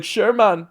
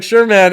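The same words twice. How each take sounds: First: Badly faked Portuguese accent, pitched higher. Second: Said in the usual way. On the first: Comedian retries the fighter's acceptance, botched Portuguese accent. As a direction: have a shaky go at a Portuguese accent. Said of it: "I don't even know how to do this accent". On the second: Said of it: "I don't do impersonations".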